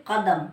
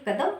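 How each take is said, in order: First: कदम with a throaty q far back in the mouth; correct Urdu sound. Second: कदम with an ordinary front k, no nukta; wrong Hindi sound. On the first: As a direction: lean on a deep-set Urdu क in कदम. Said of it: "क्या बोलेंगे?". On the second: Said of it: "तो गलत है". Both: Shown as a demonstration.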